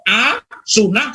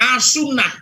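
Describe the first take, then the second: First: It has a break before the second part. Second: It is said as one joined word. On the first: The word keeps its proper religious meaning. The speaker calls it right. "dipotong, kalau A, sunnah saya masih bisa menerima" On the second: The first part sounds like an insulting word. The speaker calls it wrong. "Jadi pakai A, as-sunnah"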